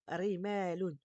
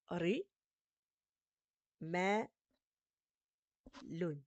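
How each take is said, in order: First: The syllables are joined smoothly without any pauses. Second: Each syllable is said separately with pauses between. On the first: "en le lisant correctement" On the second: "vous allez d'abord lire comme ça"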